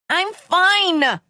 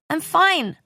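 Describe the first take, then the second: First: It is yelled loudly and raspily. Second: It is said quietly and weakly.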